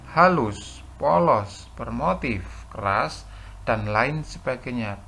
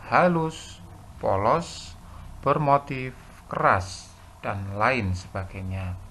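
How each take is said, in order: Both takes have the same delivery.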